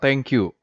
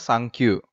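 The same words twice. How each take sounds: First: It is said with English pronunciation. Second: It is said with Japanese pronunciation, like sankyu. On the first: "Dari kata thank you" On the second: "yang diubah pelafalannya ke bahasa Jepang"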